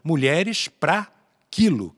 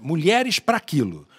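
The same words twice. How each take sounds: First: 'Pra' and 'quilo' are said as separate words. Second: 'Pra' and 'quilo' are run quickly together. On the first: It means women by the kilo, as a weight. "quilo como peso, medida de peso" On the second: It sounds like something else, a double meaning. "Você falando rápido, você pensa que é pra outra coisa"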